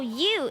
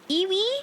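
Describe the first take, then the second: First: The word is said as one syllable, you. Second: The word is said with two syllables, ee-wee. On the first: The speaker calls it right. "It's pronounced you" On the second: The speaker calls it wrong. "I think it's iwi"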